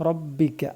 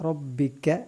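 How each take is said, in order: Both takes have the same delivery.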